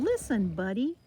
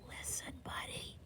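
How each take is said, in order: First: It is yelled loudly. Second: It is whispered softly.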